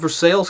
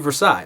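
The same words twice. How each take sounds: First: Versailles is said with a local American pronunciation. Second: Versailles is said with a French pronunciation. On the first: It names the Kentucky town as locals say it. "I grew up in a place called Versailles, Kentucky" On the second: It follows the original French name. "by French standards should be Versailles"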